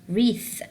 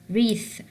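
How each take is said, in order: Both takes have the same delivery.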